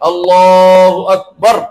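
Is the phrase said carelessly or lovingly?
lovingly. It is said slowly, humbly and with warmth. The prayer is offered with humility and love. The speaker calls it right. "বিনয় এবং ভালোবাসা সহকারে সুন্দর করে বলতে হবে"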